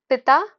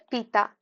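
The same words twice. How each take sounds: First: पिता with a short i in the first syllable; short vowel. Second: पीता with a long, stressed ee; stressed long vowel. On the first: Teacher giving the father word, पिता with short i. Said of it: "पिता जो है उसमें हर्षवी है". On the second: Teacher giving the drinking word, पीता with long ee. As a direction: lean on the ee in पीता. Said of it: "बलाघात पड़ रहा है यानी कि पीता". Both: Shown as a demonstration.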